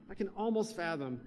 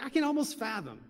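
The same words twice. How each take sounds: First: "almost" stressed, then falling away. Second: "can" lifted high in pitch; stress on "can". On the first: Preacher marvels at God's love, weight on "almost". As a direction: lean on "almost", softer voice. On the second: Preacher marvels at God's love, "can" pitched high. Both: Real, not acted. Repeats phrase, shifting the stress.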